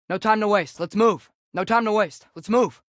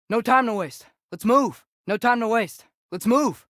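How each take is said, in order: Both takes have the same delivery.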